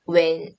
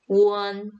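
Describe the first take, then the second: First: It sounds like the English word 'when'. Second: It sounds like the English word 'one'. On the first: The speaker calls it wrong. "영어식으로 읽으세요" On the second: The speaker calls it right. "one이라고 읽어주시면 되겠습니다"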